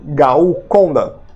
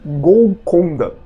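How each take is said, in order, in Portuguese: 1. A primeira sílaba termina em um som parecido com vogal, 'ao'. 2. A primeira sílaba termina em um L claro.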